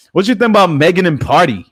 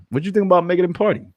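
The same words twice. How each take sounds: First: High, loud goofy put-on voice. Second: Goofy voice. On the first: Asking chat about Megan in a high goofy voice. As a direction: ham it up in a silly voice. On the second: Pretend. Repeating the question to chat in high fast goofy voice. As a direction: rattle it off in the silly voice. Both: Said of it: "my goofy voice".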